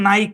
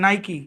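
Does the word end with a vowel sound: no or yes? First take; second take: no; yes. First: The word ends on a consonant, one syllable. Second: The word ends with a vowel, two syllables. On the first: This is how the spelling rules would read it. The speaker calls it wrong. "Pronunciation rule অনুসারে এটা হওয়ার কথা ছিল নাইক" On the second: This is the brand's actual name. The speaker calls it right. "কিন্তু এটার নাম কি? নাইকি।"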